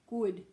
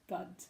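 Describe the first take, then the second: First: The vowel is a short rounded oo sound. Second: The vowel is an open uh sound. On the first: The speaker calls it right. "oo is short" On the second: The speaker calls it wrong. "they make it an uh"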